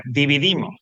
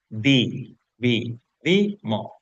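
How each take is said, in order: First: Said in the usual way. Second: DI, VI, DI, MO as separate beats; syllable by syllable. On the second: Shown as a demonstration. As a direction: break "Di, vi, di, mo" apart with a pause between syllables. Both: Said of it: "cuáles son las sílabas".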